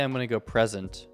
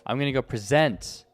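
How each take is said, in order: First: The stress is on the first syllable. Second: The stress is on the second syllable. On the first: The speaker calls it wrong. "I don't say" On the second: The speaker calls it right. "like for the verb"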